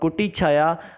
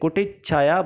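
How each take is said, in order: First: A single ch sound joins the two words. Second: A doubled ch sound joins the two words. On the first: "कुटी छाया विकल्पात्मक दृष्टि से सही है" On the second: "छ आया है, इसलिए कुटित छाया बन जाता है"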